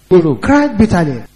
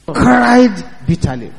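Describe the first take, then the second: First: Said in the usual way. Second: Slow, drawn out. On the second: Shown as a demonstration.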